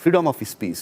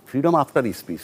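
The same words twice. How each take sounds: First: Said in the usual way. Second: Freedom after speech with after leaned on hard; stress on after. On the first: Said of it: "কিন্তু freedom after speech". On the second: Shown as a demonstration. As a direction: set after against of by hitting it. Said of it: "সেটা হলো main কথা".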